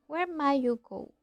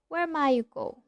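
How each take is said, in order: The two takes are said the same way.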